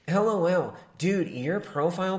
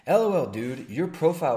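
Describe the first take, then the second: First: It is read in a put-on nasal voice. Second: It is read in a plain, normal voice. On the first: The speaker calls it right. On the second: The speaker calls it wrong.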